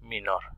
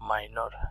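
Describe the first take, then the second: First: The first vowel is a plain short 'i'. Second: The first vowel is a gliding 'ai' sound. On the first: "তারা মিনর বলেন" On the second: "আমরা মাইনর ইংরেজিতে বলি"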